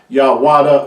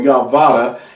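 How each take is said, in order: First: The middle sound is a w consonant. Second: The middle sound is a v consonant. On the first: "not Yawada" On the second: "or Yavada"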